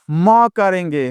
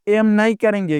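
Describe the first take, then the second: First: म as an open "ma"; म as the sound of letter M; Hindi sound for M. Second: एम as the English letter name, "em"; एम named as in the alphabet. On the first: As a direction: say म consonant first. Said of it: "क्या करेंगे". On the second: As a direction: say एम with the vowel first. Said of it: "हम एम नहीं करेंगे". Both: Shown as a demonstration.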